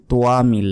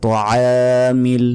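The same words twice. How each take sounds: First: তোয়ামিল said short and quick; wrong way. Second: তোয়ামিল slow, louder, ain held; correct demo. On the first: Teacher imitates what many people say. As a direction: clip তোয়ামিল like the common mistake. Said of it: "অনেকে বলি". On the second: Teacher models the right form first. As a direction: stretch তোয়ামিল with the throaty ain. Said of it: "অনেকে বলি তোয়ামিল". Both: Shown as a demonstration.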